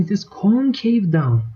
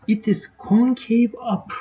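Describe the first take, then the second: First: "down" stressed to contrast with up, "concave" raised; teacher's stress on down. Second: "up" stressed to contrast with down, "concave" slowed and raised; teacher's stress on up. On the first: Teacher contrasting the two curve halves, stressing "down". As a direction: lean on "down" so it answers "up". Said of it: "However, above the point of inflection". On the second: Teacher contrasting the two curve halves, stressing "up". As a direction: lean on "up" so it answers "down". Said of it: "you can see that on the left-hand side". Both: Shown as a demonstration.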